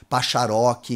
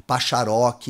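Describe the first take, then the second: First: The sounds are swapped around within the word. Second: The same.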